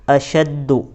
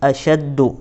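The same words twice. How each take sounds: Both takes have the same delivery.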